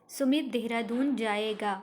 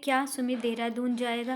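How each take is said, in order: First: It is said as a plain statement. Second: It is said as a question.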